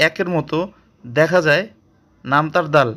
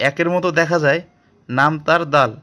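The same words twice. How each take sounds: The two takes are said the same way.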